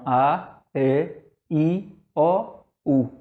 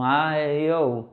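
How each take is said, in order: First: Each vowel is opened wide and clearly different. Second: The vowels sound almost the same, barely opened. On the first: The speaker calls it right. "o certo da pronúncia é a, e, i, o, u" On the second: The speaker calls it wrong. "eu estou pronunciando aqui as vogais quase que com o mesmo som"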